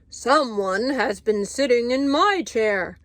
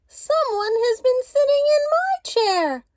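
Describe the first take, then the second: First: It is said in a great big voice. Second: It is said in a wee small voice.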